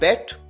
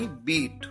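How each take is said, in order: First: The vowel is a short 'e' sound. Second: The vowel is a long 'ee' sound. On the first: The speaker calls it wrong. "कई बार students गलती करते हैं, वो pronounce करते हैं बेट" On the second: The speaker calls it right. "उसी तरह से प्रोनाउंस किया जाता है जैसे फर्स्ट फॉर्म को"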